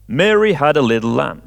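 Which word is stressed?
Mary. The stress is on Mary.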